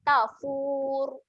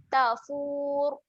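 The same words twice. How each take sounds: No difference in how they are said.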